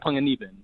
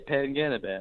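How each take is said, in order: First: The name has its native Filipino pronunciation. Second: The name has an Americanized English pronunciation. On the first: The listener is a fellow Filipino. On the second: The listener is not Filipino.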